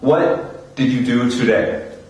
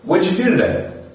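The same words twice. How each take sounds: First: Each word is said slowly and separately. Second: The words are run together and shortened. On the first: The speaker calls it wrong. "Which is speaking very slowly" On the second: The speaker calls it right. "I'm cutting my words. I'm bringing them together"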